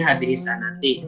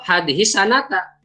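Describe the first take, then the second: First: The final word ends with an 'i' vowel. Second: The final word ends with an 'a' vowel. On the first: The phrase stands in apposition to the month. "jadi badal saja ya dari syahri Ramadhana" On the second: The phrase works as an adverb of time. "kalau sebagai dorob hadis sanata"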